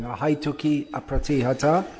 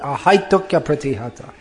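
First: The two words are said separately, with a break. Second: The two words run together in one flowing sound. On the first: The speaker calls it wrong. "Not like that" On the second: The speaker calls it right. "One flowing sound"

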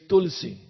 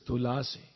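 First: No vowel is heard between l and s. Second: A vowel is heard between l and s. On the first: This is the Hindi form. "in Hindi, you say Tulsi" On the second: This is the Sanskrit form. "But in Sanskrit, it's Tulasi"

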